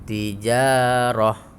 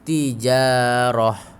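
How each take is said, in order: First: The word ends with a short 'ah' sound. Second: The same.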